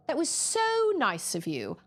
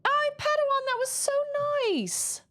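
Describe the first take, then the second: First: Attempted Australian accent. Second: High, bright Australian accent attempt; Australian accent, pitched up. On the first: Retrying the thank-you in an Australian accent. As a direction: say it as an Aussie would. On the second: Thanking a viewer in a put-on Australian accent. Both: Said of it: "That's Australian".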